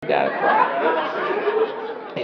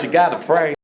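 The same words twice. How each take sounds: First: High, very slow sung-out pray; mock church lady. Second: Said in the usual way. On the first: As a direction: stretch it like a churchy singer. Preachy drawn out.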